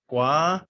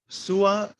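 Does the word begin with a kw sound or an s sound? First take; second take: kw sound; s sound. First: The word begins with a kw sound. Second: The word begins with an s sound. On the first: The speaker calls it right. "No, it's the qua sound" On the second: The speaker calls it wrong. "the C is not an S sound. So some people might look at it and say"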